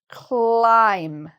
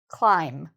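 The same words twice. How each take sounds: First: The word is said slowly, sounds drawn out. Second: The word is said at normal speed.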